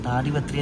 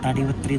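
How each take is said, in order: First: The first vowel is long: Taadipatri. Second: The first vowel is short: Tadipatri. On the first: The speaker calls it right. "താടിപത്രി എന്നാണ് അപ്പോൾ ഈ ഒരു സ്ഥലത്തിനെ പറയുന്നത്" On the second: The speaker calls it wrong. "തടിപത്രി എന്നല്ല"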